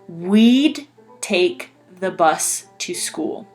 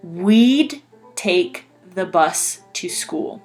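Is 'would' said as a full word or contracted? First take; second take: contracted; contracted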